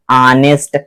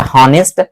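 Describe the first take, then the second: First: ऑनेस्ट begun on the vowel, no H; silent H. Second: हॉनेस्ट opened with a breathed H; sounded H. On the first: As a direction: drop the H, sound ऑनेस्ट from inside. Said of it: "यहां से sound उत्पन्न हो रहा है अंदर से". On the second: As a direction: say the H at the start of हॉनेस्ट. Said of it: "हवा यहां से डायरेक्ट निकल रही". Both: Shown as a demonstration.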